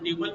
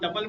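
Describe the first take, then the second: First: The first syllable sounds like 'tyoo' with long vowel. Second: The first syllable sounds like 'tup' with short vowel. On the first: Other people say it this way. "कोई ट्यूपल पढ़ता है" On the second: Some people say it this way. "इसको कोई टपल पढ़ता है"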